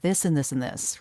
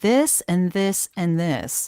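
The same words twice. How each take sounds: First: The items are run together and glossed over. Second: Each item is given weight and emphasis.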